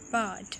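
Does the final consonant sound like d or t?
d. The final consonant sounds like a soft d. "वो क्या कहते हैं पॉट"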